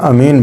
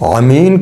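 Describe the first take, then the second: First: It begins with a plain, light vowel sound. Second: It begins with a deep guttural throat sound. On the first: People of peace or trust. The speaker calls it wrong. "अगर हम अमीन की आइन को हल्का या बारीक पढ़ दें तो वो अलिफ बन जाएगा" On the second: People who were blind. The speaker calls it right. "अमीन की जगह"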